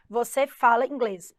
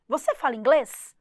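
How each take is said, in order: First: Falling tune, a flat statement; Você fala inglês said as a plain statement, falling at the end; statement intonation. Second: Rising tune, a question; Você fala inglês? lifted at the end to ask; question intonation. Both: Shown as a demonstration. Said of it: "Você só dá uma ênfase".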